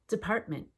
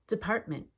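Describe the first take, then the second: No difference in how they are said.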